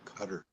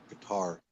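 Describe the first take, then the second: First: The word sounds like 'cutter'. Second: The word sounds like 'guitar'. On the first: This is the older way it used to be said. "I say cutter. ... that's how we used to pronounce it" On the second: This may be the way it is said now. "But maybe they call it guitar now"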